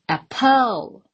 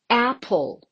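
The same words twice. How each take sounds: First: The stress is on the second syllable. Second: The stress is on the first syllable. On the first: The speaker calls it wrong. "I never say apple, which sounds really weird and odd" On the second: The speaker calls it right. "It falls on the first syllable"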